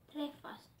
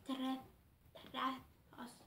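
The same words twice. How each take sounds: First: "Träffas" said whole, falling at the end; clean retry. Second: "Trä-, träffas" broken off and tried again; stumbling attempt. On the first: A girl reading her Swedish book, fixing the word. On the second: A girl reading her Swedish book, stumbling. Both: Shown as a demonstration.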